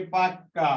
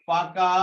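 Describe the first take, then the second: First: পাক্কা with a long, doubled k; emphatic held k in পাক্কা; doubled consonant. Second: Said in the usual way. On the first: Shown as a demonstration. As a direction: stop on the k in পাক্কা, then release it: pak-ka. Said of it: "শব্দকে জোর দিয়ে উচ্চারণ করার জন্য". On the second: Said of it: "পাকা থেকে পাক্কা".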